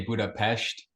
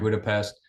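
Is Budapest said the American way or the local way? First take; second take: local; American. First: It is said with the local Hungarian pronunciation. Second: It is said with the usual American pronunciation.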